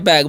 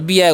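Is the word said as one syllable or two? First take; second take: one; two. First: The word is said as one syllable. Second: The word is said as two syllables. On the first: The speaker calls it right. "तो उसे क्या पढ़ना है" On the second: The speaker calls it wrong. "बी एग हो जाता है। ... तो गलती हो जाता है।"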